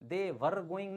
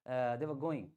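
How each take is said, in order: First: The word 'were' is said fully as 'wer'. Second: The word 'were' is reduced to a short 'w'. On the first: The speaker calls it wrong. "नहीं बोलेंगे" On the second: The speaker calls it right. "सिर्फ व निकालेंगे"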